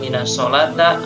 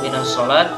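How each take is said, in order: First: The last word ends with an a vowel. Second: The last word ends without any final vowel. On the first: "Kenapa tidak boleh dibaca" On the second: "Kenapa tidak boleh dibaca"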